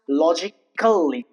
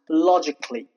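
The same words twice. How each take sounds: First: The a in the ending is sounded. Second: The a in the ending is silent. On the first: The speaker calls it wrong. "it is not pronounced logically" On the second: The speaker calls it right. "it's pronounced logically"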